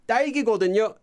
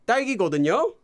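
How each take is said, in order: First: It is said with an impatient, obvious-sounding tone. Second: It is said with an impatient, obvious-sounding tone.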